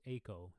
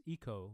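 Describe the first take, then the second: First: "Eco" said the Dutch way, AY-koh; Dutch-style "Eco", first syllable as in ace; Dutch pronunciation. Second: "Eco" said the English way, EE-koh; English-style "Eco", first syllable as in eel; English pronunciation. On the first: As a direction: start "Eco" with an ay sound. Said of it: "in Dutch it's Eco". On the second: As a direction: start "Eco" with a long ee. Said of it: "in English it's Eco". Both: Shown as a demonstration.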